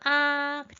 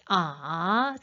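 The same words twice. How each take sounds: First: The pitch stays high and level. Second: The pitch dips low and then rises. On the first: "일성을 눌러주시면 하고 아이들과 함께 발음" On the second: "삼성은 어떻게 해?"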